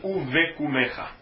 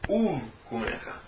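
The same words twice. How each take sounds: First: A short e vowel follows the v sound. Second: No vowel follows the v sound. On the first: The speaker calls it wrong. "e nem Uv Kumecha" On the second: The speaker calls it right. "é um Shevá mudo"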